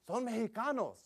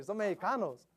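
First: Imitating a teen. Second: Retold teen. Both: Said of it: "That's what they say".

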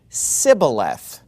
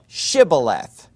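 First: Sibboleth with an s instead of sh, slow; Sibboleth pronounced slowly with s; mispronounced. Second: Shibboleth with a clear sh, slow; right pronunciation. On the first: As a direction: say Sibboleth, s not sh, drawn out. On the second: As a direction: say Shibboleth with a full sh sound, drawn out. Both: Acted. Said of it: "could not frame to pronounce it right".

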